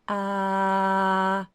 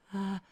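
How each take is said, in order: First: The sound is clear with firm vocal contact. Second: The sound is an airy, breathy sigh. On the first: "hear the clarity of the sound shift" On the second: "when I just put air over my, my vocal folds ... like when I'm sighing"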